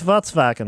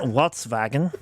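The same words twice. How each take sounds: First: "Volkswagen" with a V sound in the middle; German-style V for the W in "Volkswagen"; correct pronunciation. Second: "Volkswagen" starting with a W sound; slow "Volkswagen", W in place of the first V; mock mispronunciation. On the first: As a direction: say "Volkswagen" as "Vots-vagen". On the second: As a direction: say "Volkswagen" as "Wots-vagen", slowly. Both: Shown as a demonstration. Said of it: "not Volkswagen".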